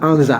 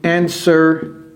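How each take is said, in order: First: The word is said as 'anza'. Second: The word is said as standard English 'answer'. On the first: The speaker calls it wrong. "Ne dites pas anza" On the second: The speaker calls it right. "how to answer"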